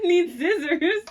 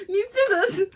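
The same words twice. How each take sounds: First: Slow, high mock Australian accent. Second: High, loud mock Australian accent. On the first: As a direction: say it drawn-out in a would-be Aussie accent. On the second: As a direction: attempt an Aussie accent, high-pitched. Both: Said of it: "was it an Australian accent".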